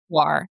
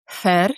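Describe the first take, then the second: First: It is said simply, like English 'war'. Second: It is said with the native Croatian sounds. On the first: This is an easy version for foreigners. "for foreigners, the best way to pronounce it is war, like w-r" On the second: This is how Croatians say it. "The Croatian pronunciation is"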